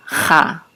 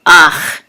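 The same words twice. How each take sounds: First: "cha" with guttural ch first, then ah; consonant before the vowel. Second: "ach" with the vowel first, then throaty ch; vowel before the chet. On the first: Teacher shows how it only looks, "cha" as spelt. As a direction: say "cha", opening on the throaty ch. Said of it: "looks kind of like". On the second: Teacher shows how the final chet reads, "ach". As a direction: say "ach", ending on the guttural ch. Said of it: "be pronounced as". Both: Shown as a demonstration.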